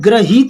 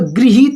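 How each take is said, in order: First: The first syllable is pronounced 'gra'. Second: The first syllable is pronounced 'gri'. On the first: The speaker calls it wrong. "कभी भी ग्रहित नहीं होता" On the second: The speaker calls it right. "गृहीत होते हैं ... रिकार होता है"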